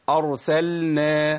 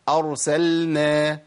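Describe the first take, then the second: The two takes are said the same way.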